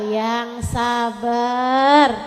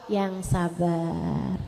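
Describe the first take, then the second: First: "yang sabar" stretched very slowly; drawn-out advice. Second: Slow drawn patience. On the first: Ustazah answering complaining women, very slow. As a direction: drag out "yang sabar" patiently. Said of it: "Ustazah, saya dijahatin sama ipar". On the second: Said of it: "Ustazah digalakin sama mertua". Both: Shown as a demonstration.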